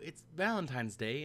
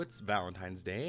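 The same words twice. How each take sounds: First: It is said in a slightly higher-pitched voice. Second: It is said in a lower, normal-pitched voice. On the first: It sounds like the female character speaking. The speaker calls it wrong. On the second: It sounds like the male character speaking. The speaker calls it right.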